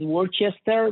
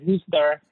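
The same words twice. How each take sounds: First: It is read out as spelled, syllable by syllable. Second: It is said in a shortened local form. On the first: This is how the name looks written down. The speaker calls it wrong. "they write it Worcester" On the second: This is how local people actually say the name. The speaker calls it right. "but they pronounce it as Worcester"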